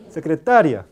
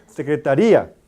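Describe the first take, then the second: First: Secretaria with a quick, unstressed i gliding into a; diphthong pronunciation. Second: Secretaría with a long, stressed í, said loud; hiato pronunciation. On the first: Teacher to class, semivowel demo, loud. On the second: Teacher to class, showing hiatus, loud. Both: Shown as a demonstration. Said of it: "se pronuncia este I más larga".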